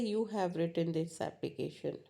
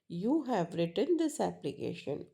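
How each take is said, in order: First: It is said in a plain, neutral tone. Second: It is said in an accusing tone. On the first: It is a simple statement of fact. "so that's a normal" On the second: The listener is being blamed for it. "Means I am alligating you"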